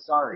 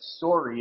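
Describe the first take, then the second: First: The vowel sounds American, like 'sar-y'. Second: The vowel sounds Canadian, like 'sore-y'. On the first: The speaker calls it right. "instead of sorry" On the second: The speaker calls it wrong. "he said it wrong because he said it sorry"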